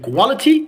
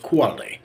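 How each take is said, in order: First: The middle consonant is a clear T sound. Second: The middle consonant is a soft D sound. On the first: "Instead of saying quality" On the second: "we can call it D or light D"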